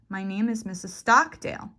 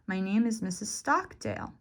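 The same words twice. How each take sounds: First: The stressed syllable is said noticeably louder. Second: The stressed syllable has a marked pitch change. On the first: "you can increase the volume" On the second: "You can change the pitch, the raise and fall of your voice"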